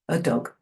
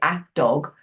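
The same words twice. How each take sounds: First: The 'a' is a weak, swallowed 'uh' sound. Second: The 'a' is a full 'ay' sound. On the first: The speaker calls it right. "swallow it" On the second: The speaker calls it wrong. "you don't encourage them to say a dog"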